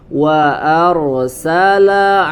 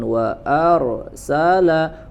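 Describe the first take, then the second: First: The sound flows through without a break. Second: There is a break at the ra sound. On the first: The speaker calls it right. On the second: The speaker calls it wrong. "jangan berhenti atau ada jeda di situ"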